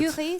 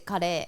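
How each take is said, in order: First: It is said with a French pronunciation. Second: It is said with a Japanese pronunciation.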